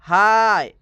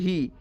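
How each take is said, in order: First: The vowel glides like the word eye. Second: The vowel is a long ee sound. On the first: The speaker calls it right. "इसको हम पढ़ेंगे हाय ... ये सही है" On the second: The speaker calls it wrong. "Actually ही पढ़ते हैं ... यह wrong है"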